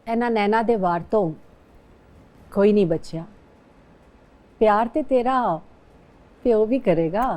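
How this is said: It is said in a soft, romantic tone.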